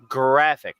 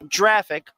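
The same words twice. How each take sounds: First: It begins with a hard g sound. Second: It begins with a soft j sound. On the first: The speaker calls it right. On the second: The speaker calls it wrong. "not graphic. It's not a a, a, a tall giraffe"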